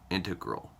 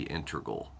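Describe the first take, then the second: First: Said in the usual way. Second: "Integral" said as "in-ter-gul"; slurred "Integral". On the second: Real, not acted. Reading out a book title, "Integral" slipped to "inter-gul". Slip, then says the word again.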